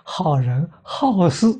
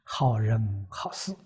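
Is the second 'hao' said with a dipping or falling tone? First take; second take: falling; dipping. First: The second hao has a sharp falling tone. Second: The second hao has a low dipping tone. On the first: Good people who like to meddle in affairs. "圈了圈念去声，怎么念法呢？" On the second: Good people doing good deeds. "我们老师把这个四个字写在黑板上。"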